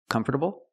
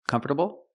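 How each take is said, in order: First: Four syllables, with the T as a quick D. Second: Four syllables, with the T as a quick D.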